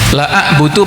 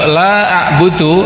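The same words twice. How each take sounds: First: The vowel in 'la' is cut short. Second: The vowel in 'la' is held long. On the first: I certainly worship. The speaker calls it wrong. "kalau lam pendek" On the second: I will not worship. The speaker calls it right. "aku tidak akan menyembah"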